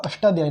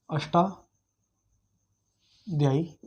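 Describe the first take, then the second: First: Said in the usual way. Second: Ashtadhyayi drawn out very slowly, broken by a long pause; slow dictation. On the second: Shown as a demonstration. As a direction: dictate Ashtadhyayi in two slow, separated parts. छात्रों को नाम दोहराकर लिखवाना. (अष्टाध्यायी को रुक-रुक कर, बहुत धीरे बोलकर लिखवाना)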